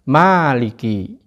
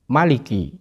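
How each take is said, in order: First: The first vowel is held long. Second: The first vowel is kept short. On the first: "dengan mat atau panjang" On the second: "dengan ma pendek"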